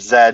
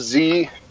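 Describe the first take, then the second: First: It is said the Canadian way, as 'zed'. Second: It is said the American way, as 'zee'.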